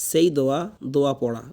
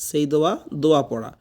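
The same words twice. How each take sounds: The two takes are said the same way.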